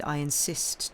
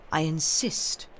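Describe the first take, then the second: First: Said in the usual way. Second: Affectionate fatherly insistence; paternal affection. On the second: A narrator's reading. Father insisting to his daughter, paternal affection. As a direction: insist tenderly, like a loving father. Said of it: "a voice so full of paternal affection".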